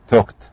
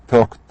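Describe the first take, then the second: The two takes are said the same way.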